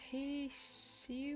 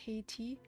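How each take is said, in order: First: The middle consonant is a sh sound. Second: The middle consonant is a t sound. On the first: "I feel like with sh" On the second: "not Haiti"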